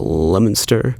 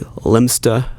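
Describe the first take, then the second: First: The name is said with three syllables. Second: The name is said with fewer than three syllables. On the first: "Other people pronounce it more like a three syllables" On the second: "some people say Lemsta"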